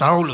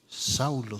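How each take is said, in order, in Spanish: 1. Se dice más alto y con más fuerza. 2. Se dice a un volumen más suave y normal.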